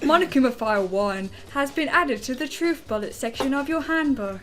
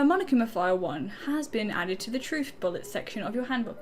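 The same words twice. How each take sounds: First: It is read in a Big Brother announcer voice. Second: It is read in his normal voice.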